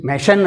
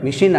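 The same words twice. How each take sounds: First: "మెషిన్" said as me-SHAN; alternative pronunciation. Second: "మెషిన్" said as mi-SHEEN; "ee" sound in the second syllable of "మెషిన్"; alternative pronunciation. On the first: Teacher comparing British and American English, మెషిన్ as me-SHAN. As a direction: open "a" in the second syllable of "మెషిన్". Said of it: "అని కూడా అంటారు". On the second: Teacher comparing British and American English, మెషిన్ as mi-SHEEN. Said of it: "మెషిన్ అంటారు". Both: Shown as a demonstration.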